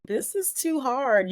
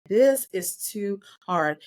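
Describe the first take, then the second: First: Slow, pitched-up cry of despair, mildly retold; a retold prayer of despair, slow and high; anguished plea to God. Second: Slow, strained repeat of the plea, mildly retold; a retold, exhausted prayer, slow; weary plea to God. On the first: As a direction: plead that it is too much. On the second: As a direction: say it like you are worn out. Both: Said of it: "I started talking to God".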